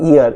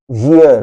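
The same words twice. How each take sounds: First: Ear said as plain eer with no y at the start; ear without y. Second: Year said as yeer with a clear y sound. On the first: Teacher contrasting ear with year: ear, no y. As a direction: say ear with a bare vowel, no y. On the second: Teacher contrasting year and ear: year, crisp y. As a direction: say year starting with y, not ear. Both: Shown as a demonstration. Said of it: "this is not ear".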